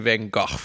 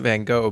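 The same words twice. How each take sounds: First: The name is said with a French-style pronunciation. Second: The name is said with a common English pronunciation. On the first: This is the fancy way heard in the movie. "we can be fancy and try to say Van Gogh" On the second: This is the way usually heard. "you always hear Vincent Van Gogh"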